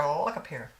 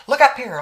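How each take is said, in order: First: Said in the usual way. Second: Louder, higher call for attention. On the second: Real, not acted. Telling her viewers to look up at her, a loud call.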